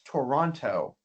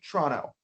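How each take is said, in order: First: All three syllables and both t sounds are pronounced. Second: The first o and final t are dropped. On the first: "Most people from around the world would read this as Toronto" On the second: "we would say Toronto"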